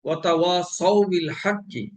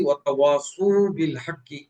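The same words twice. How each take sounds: First: Slow ওয়াতাওয়াসাউ with a clear a on the sad; correct fatha on sad. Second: ওয়াতাওয়াসু with u after the sad; wrong damma on sad. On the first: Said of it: "সদের উপরে জবর আছে". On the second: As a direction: swap the a for u: ওয়াতাওয়াসু. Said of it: "জবরের স্থলে পেশ পড়ায়". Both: Shown as a demonstration.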